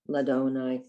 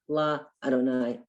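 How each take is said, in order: First: The two words are run together. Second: The two words are said separately. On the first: The speaker calls it right. "We would put it together" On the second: The speaker calls it wrong. "we wouldn't say La Adonai"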